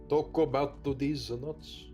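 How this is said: It is said in a Japanese accent. "tell me how that works in Japan"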